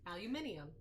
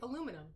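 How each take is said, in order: First: The word is said with five syllables. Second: The word is said with four syllables. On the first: This is how the other side says it. "I know that's how you say it" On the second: This is how the speaker's own side says it. "And we say aluminum"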